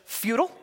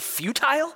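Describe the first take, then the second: First: The word is pronounced in an American way. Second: The word is pronounced in a British way. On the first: The speaker calls it right. "I'm not British" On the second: The speaker calls it wrong. "no, I'm not British"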